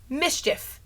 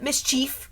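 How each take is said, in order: First: "mischief" as MIS-chif; short second vowel in "mischief", MIS-chif; correct mischief. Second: "mischief" as mis-CHEEF; long ee in "mischief", mis-CHEEF; wrong mischief. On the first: Teaching the noun, "mischief" as MIS-chif. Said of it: "It's not mischief". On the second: Mocking the error, "mischief" as mis-CHEEF. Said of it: "it's mischief". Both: Shown as a demonstration.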